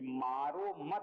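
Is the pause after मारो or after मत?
after मत. The pause comes after मत.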